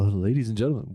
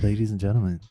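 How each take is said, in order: First: It is said in a put-on radio announcer voice. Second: It is said in a normal speaking voice.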